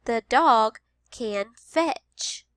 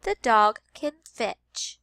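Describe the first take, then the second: First: Very slow The dog can fetch; slow teacher read-aloud; slow modeled sentence. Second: Slow The dog can fetch; slow teacher read-aloud; slow modeled sentence. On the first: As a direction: read it slowly. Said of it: "Listen to this sentence". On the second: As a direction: repeat slowly. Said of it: "We're listening for the word". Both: Shown as a demonstration.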